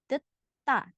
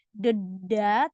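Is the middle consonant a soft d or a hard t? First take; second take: hard t; soft d. First: The middle consonant is a hard t. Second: The middle consonant is a soft d. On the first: The speaker calls it right. "tapi deta" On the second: The speaker calls it wrong. "Jadi bukan deda"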